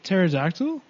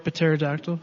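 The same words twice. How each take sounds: First: The word starts with a silent P. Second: The word starts with a sounded P.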